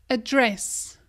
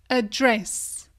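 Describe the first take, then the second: The two takes are said the same way.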